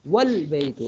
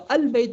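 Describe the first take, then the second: First: والبیت with the wa joined straight onto the lam, no hamza sound; joined pronunciation. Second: البیت said on its own with the alif sounded, the form not to use; the a of البیت clearly pronounced; wrong pronunciation. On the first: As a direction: say والبیت as one word, alif dropped. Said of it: "اب ہم و- البیت نہیں کہیں گے". (والبیت کو ملا کر، حمزہ گرا کر) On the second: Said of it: "البیت نہیں کہیں گے". (البیت، الف کے ساتھ غلط طریقہ) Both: Shown as a demonstration.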